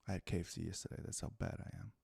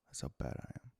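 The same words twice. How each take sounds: First: Whispered confession of bad eating. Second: Lower whisper. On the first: Confessing to viewers about KFC in a whisper. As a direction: breathe it out like a guilty secret. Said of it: "confessing KFC habit". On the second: Confessing to viewers again in a deeper whisper. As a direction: repeat it as a lower, softer whisper. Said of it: "repeated whisper". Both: Real, not acted.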